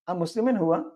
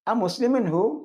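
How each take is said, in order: First: The final word ends with its full last vowel. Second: The final word ends without its last vowel. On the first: This is the exact formal form. "കൃത്യമായ ഉച്ചാരണം അനുസരിച്ച്" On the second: This is the everyday spoken form. "Spoken language അനുസരിച്ച് ലാസ്റ്റിൽ സുക്കൂൻ ചെയ്ത് പറഞ്ഞു"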